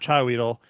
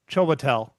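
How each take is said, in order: First: The name is said as 'Chai Weedle'. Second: The name is said as 'Chiwetel'. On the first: The speaker calls it wrong. "So not Chai Weedle" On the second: The speaker calls it right. "That's how they have it pronounced"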